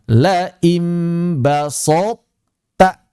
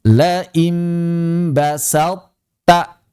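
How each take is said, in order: First: The s sound is heavy and thick. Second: The s sound is light and thin. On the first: The speaker calls it wrong. "Bukan ... Tidak tepat" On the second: The speaker calls it right. "Sinnya jangan ditebalkan"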